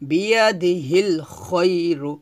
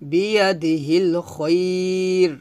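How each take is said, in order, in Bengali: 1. শেষ শব্দটি একটি ছোট উ-স্বরে শেষ হয়েছে। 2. শেষ শব্দটি স্বরচিহ্নহীন r ব্যঞ্জনে শেষ হয়েছে।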